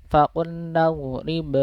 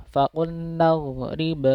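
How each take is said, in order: Both takes have the same delivery.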